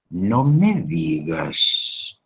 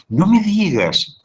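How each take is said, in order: First: Very slow, flat-toned, begrudging no me digas; grudging, envious. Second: High, slow, glad no me digas; pleased astonishment at good news; happy surprise. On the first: Envious friend hears Margarita bought a car, grudging. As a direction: say it with hidden resentment. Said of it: "está diciendo todo lo contrario". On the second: Friend reacts to Margarita's new car with delight. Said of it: "en vez de decir". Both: Shown as a demonstration.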